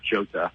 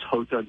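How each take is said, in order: First: The name begins with a hard J sound. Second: The name begins with a breathy H sound. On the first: The speaker calls it wrong. "hard J" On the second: The speaker calls it right. "the Spanish pronunciation of the letter J"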